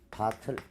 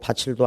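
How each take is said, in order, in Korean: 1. 두 번째 음절은 t 소리로 시작한다. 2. 두 번째 음절은 ch 소리로 시작한다. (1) "일 번 선택지는 바틀" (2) "바칠도 아닙니다"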